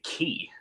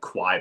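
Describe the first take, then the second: First: It begins with a plain k sound. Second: It begins with a kw sound. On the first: "I would say Ki" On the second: "I thought it was pronounced like Kwai"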